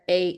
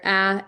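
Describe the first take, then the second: First: The vowel is said with its hard sound. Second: The vowel is said with its soft sound. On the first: "if they're hard, they're A" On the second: "If they're soft, they're a"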